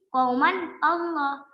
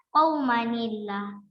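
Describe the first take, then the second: First: No extra sound; the words stay separate. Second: An extra 'ni' sound links the two words. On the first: The speaker calls it wrong. "bukan lagi qauman Allah" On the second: The speaker calls it right. "Jadi dibaca qaumanillah"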